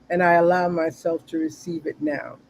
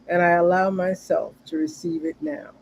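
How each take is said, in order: No difference in how they are said.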